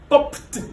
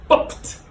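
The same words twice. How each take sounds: No difference in how they are said.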